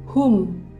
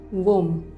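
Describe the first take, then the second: First: The initial W sound is silent. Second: The initial W sound is pronounced. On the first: The speaker calls it right. "dibacanya whom" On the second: The speaker calls it wrong. "bukan whom"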